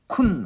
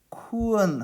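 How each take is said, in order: First: It is said as a short kun, no glide. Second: It is said as ku-en, with a glide vowel. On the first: The speaker calls it wrong. "그냥 쿤 하지 말고" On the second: The speaker calls it right. "쿠언 하셔야 돼요"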